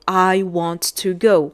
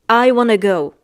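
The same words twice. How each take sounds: First: Each word is pronounced fully and separately. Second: The words blur together, like 'wanna'. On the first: "Maybe in the dictionary, you're going to find" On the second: "in the real life conversations, especially with the American accent"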